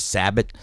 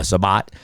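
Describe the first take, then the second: First: SAB-it, stressed on the first syllable; front-stressed slip on "Sabat"; mispronounced name. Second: Sabat as suh-BAHT; self-corrected "Sabat", open BAHT at the end; corrected name. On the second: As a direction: stress the second syllable of Sabat. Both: Real, not acted. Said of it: "uh, Sabat".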